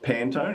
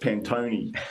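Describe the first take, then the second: First: The word is said with an English pronunciation. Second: The word is said with an Italian pronunciation. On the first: The speaker calls it wrong. "it's not Pantone" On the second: The speaker calls it right. "It's an Italian word"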